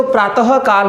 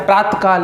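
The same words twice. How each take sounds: First: "प्रातः काल" with an audible ha after त; spoken visarga form. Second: "प्रातः काल" run together as praat-kaal; miswritten form, visarga dropped. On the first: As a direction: say "प्रातः काल" as praa-ta-ha kaal. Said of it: "बोलते तो प्रातः काल है". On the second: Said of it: "लेकिन लिखते क्या है". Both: Shown as a demonstration.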